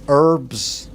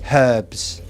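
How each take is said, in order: First: It is said in an American accent. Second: It is said in an English accent.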